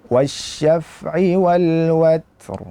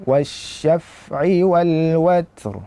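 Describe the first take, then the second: No difference in how they are said.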